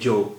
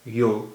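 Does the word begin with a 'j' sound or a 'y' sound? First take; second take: j sound; y sound. First: The word begins with a 'j' sound. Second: The word begins with a 'y' sound.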